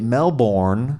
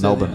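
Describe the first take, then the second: First: It is said with an American pronunciation. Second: It is said with a local Australian pronunciation. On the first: The speaker calls it wrong. "Americans say Melbourne" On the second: The speaker calls it right. "I say it like the locals"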